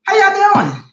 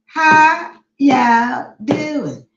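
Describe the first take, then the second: First: High, quick greeting, falling at the end; excited greeting. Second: Very slow, stretched country Southern drawl; country Southern accent. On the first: Real, not acted. Host greeting live viewers, excited high call. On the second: Shown as a demonstration. Host greeting live viewers in a country Southern accent. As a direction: draw out each word in Southern country style. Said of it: "that's my country Southern accent".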